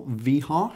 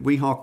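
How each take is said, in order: First: "Veeha" with a V sound; pronounced with V. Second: "Weeha" with an English W; pronounced with W. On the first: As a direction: start "Veeha" on V, not W. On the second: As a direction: start "Weeha" on a rounded W sound. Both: Shown as a demonstration. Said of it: "however you choose to pronounce it".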